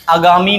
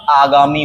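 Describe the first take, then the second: First: आगामी said as "a-gaami"; short first vowel. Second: आगामी said as "aa-gaami"; long first vowel. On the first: Teacher showing the mistake, आगामी with short first a. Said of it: "आगामी नहीं होता". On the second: Teacher correcting, आगामी with long first aa. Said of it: "आगामी होता है". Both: Shown as a demonstration.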